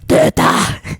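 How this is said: It is said in an angry tone.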